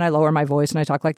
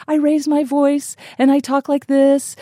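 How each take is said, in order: First: Lowered, deeper voice; man impression voice. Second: Raised, higher and louder voice; woman impression voice. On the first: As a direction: drop the voice down to play a man. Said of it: "I lower my voice and I talk like this". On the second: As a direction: lift the voice up to play a woman. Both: Shown as a demonstration.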